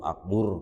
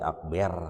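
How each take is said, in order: First: The last syllable has a 'u' vowel. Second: The last syllable has an 'e' vowel. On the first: "atau akbur gitu" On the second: "jadi akber"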